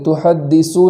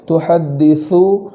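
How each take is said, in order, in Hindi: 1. d के बाद वाला व्यंजन 's' की ध्वनि है। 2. d के बाद वाला व्यंजन 'th' की ध्वनि है। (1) "सा को सीन की तरह नहीं पढ़ेंगे, तुहद्दिसु नहीं पढ़ेंगे" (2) "बल्कि तुहद्दिसु इस तरीक़े से पढ़ेंगे"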